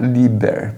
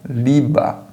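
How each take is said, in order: First: The word ends with a spoken 'er' sound. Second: The word ends with a plain 'a' sound. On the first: The speaker calls it wrong. "Você não vai precisar pronunciar Lieber" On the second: The speaker calls it right. "você vai pronunciar Liba"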